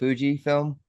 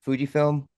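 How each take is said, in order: First: The first vowel sounds like 'oo'. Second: The first vowel sounds like 'oo'.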